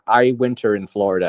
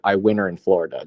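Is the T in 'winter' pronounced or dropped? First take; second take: pronounced; dropped. First: The T in winter is clearly pronounced. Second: The T in winter is dropped. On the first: The speaker calls it right. "would much prefer to hear somebody say" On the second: The speaker calls it wrong. "as opposed to"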